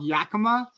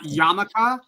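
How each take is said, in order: First: The name is said as Yakima. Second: The name is said as Yamaka. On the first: The speaker calls it right. "it's called Yakima" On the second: The speaker calls it wrong. "not Yamaka"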